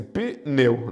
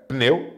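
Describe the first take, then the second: First: Pneu broken into pi, pause, neu; wrongly split syllables. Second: Pneu with p and n run straight together; one syllable. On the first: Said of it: "eu não posso escrever assim". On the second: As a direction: say Pneu in a single beat, no vowel after p. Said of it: "é uma sílaba só". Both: Shown as a demonstration.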